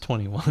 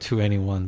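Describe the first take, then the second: First: The name is said as the number twenty-one. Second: The name is said as two, N, E, one. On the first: The speaker calls it right. "but it's twenty-one, really" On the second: The speaker calls it wrong. "we keep pronouncing it"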